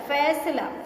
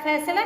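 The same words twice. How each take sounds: First: The first sound is an f. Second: The first sound is an aspirated p. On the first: The speaker calls it right. "फ के नीचे नुक्ता रहेगा" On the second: The speaker calls it wrong. "फैसला नहीं होता"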